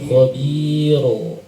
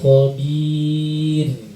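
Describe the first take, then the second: First: The word ends with a vowel after ra. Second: The word ends on a held, stopped ra. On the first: The speaker calls it wrong. "Banyak yang salah di sini" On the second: The speaker calls it right. "Harusnya khobir, ditahan"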